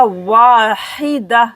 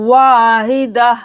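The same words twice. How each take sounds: First: Wahida drawn slowly; long wa slower. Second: Wahida with wa stretched; long wa. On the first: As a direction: draw wahida out. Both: Shown as a demonstration. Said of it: "वाव को अलिफ के साथ मिलाकर खींचा जाएगा".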